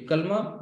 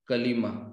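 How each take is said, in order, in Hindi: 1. इसका उच्चारण दो अक्षरों में होता है, kal-ma। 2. इसका उच्चारण तीन अक्षरों में होता है, ka-li-ma।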